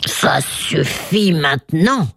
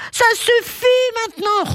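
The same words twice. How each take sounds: First: Rugissement lent et soufflé, presque sans voix; rugissement de colère. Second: Exclamation rugie, très aiguë; lion excédé qui rugit haut perché; rugissement de colère. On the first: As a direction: rugis lentement dans un souffle rauque. (colère rugie, lente et soufflée) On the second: (rugissement de lion en colère) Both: A narrator's reading. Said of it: "rugit le lion".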